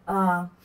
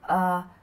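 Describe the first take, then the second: Both takes have the same delivery.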